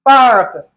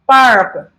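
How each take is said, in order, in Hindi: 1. स्वर के बाद R ध्वनि उच्चारित होती है। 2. स्वर के बाद R ध्वनि उच्चारित होती है।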